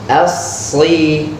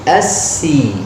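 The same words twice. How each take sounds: First: The s sound is thick, like sad. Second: The s sound is thin, like sin. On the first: The speaker calls it right. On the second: The speaker calls it wrong.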